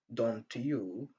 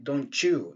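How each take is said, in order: First: The t and y sounds stay separate. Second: The t and y merge into one sound. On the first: The speaker calls it wrong. "Au lieu de dire" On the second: The speaker calls it right. "on dit"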